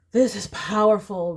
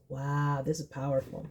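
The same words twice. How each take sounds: First: Said in the usual way. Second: Awed hush. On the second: Real, not acted. Reading the Strength card.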